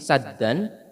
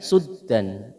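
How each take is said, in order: First: The first syllable has an 'a' vowel. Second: The first syllable has a 'u' vowel. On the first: "bisa dibaca dengan fathahnya sin" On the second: "dan juga dengan dhammahnya"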